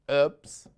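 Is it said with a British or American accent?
American. It is said in an American accent.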